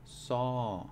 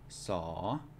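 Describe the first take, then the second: First: The syllable has a falling tone. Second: The syllable has a rising tone. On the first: "then it is going to be a falling tone" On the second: "They will always be rising"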